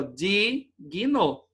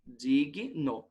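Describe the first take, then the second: First: "Digno" split as di, pause, guino; separação errada. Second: "Digno" split as dig, pause, no, lower; separação correta. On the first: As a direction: stretch the di of "Digno", then pause before guino. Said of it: "não pode aparecer assim". ("Digno" separado errado: di... guino) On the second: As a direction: keep the g in the first syllable of "Digno", then pause. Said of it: "a separação correta da palavrinha". ("Digno" separado certo: dig... no) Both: Shown as a demonstration.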